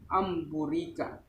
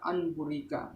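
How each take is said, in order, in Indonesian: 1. Bunyi sengau sebelum b adalah m. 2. Bunyi sengau sebelum b adalah n. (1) "tapi amburika" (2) "Tidak boleh dibaca anburika"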